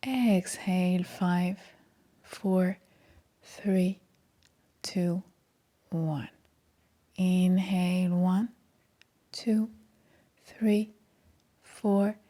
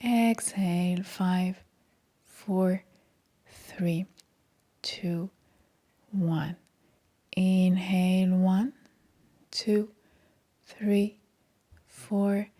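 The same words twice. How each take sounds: The two takes are said the same way.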